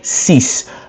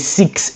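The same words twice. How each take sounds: First: It is pronounced the French way, ending in s. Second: It is pronounced the English way, ending in ks. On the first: "rather in French you say six" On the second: "you say six in French in English"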